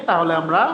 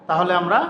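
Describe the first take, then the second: Both takes have the same delivery.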